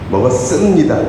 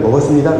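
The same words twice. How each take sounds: First: It is said in full with stress on 스. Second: It is said quickly with the middle syllable reduced. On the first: This is used only when that syllable is emphasized. "먹었스의 강세가 들어가는 경우입니다" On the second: This is the ordinary casual way of saying it. "빨리 얘기하면 그냥 먹었습니다 그래요"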